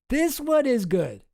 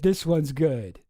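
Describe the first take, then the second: First: "This one is good" much higher, slower, leaning on "one"; emphatic insistence. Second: Said in the usual way. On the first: Shown as a demonstration. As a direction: insist with "one" lifted high. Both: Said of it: "You gotta admit".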